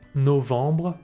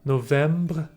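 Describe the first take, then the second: First: The vowel is nasal with no M heard. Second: An M consonant is heard after the vowel. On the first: The speaker calls it right. "I'm saying ... novembre" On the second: The speaker calls it wrong. "I'm not saying ... novembre"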